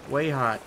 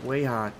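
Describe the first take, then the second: No difference in how they are said.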